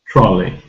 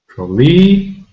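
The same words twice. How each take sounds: First: The stress is on the first syllable. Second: The stress is on the second syllable. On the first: The speaker calls it right. "the first syllable is stressed" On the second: The speaker calls it wrong. "We don't say trolley"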